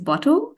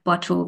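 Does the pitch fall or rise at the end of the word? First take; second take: rises; falls. First: The pitch rises at the end, like a question. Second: The pitch falls at the end, like a statement. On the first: It is a question. "my rise in pitch there is more, that second one was a question" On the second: It is a plain statement. "versus me just saying it"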